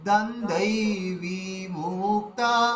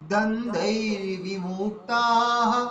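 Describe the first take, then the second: First: The vowel of 'vi' is drawn out long. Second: The vowel of 'vi' is kept short. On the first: The speaker calls it wrong. "বি দীর্ঘ হয়ে যাবে, ভুল হয়ে যাবে" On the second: The speaker calls it right. "বিটাকে আমাদের হ্রস্ব রাখতে হবে"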